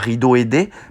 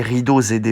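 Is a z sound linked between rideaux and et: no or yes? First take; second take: no; yes. First: Rideaux and et are said without a linking z. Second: Rideaux links to et with a z sound. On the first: The speaker calls it wrong. "On ne dit pas" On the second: The speaker calls it right. "il faut faire une liaison"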